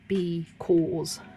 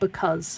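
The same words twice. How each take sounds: First: It is sounded out by its letters. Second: It is said the usual, everyday way. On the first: The speaker calls it wrong. "It would be because" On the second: The speaker calls it right. "that's a common exception word"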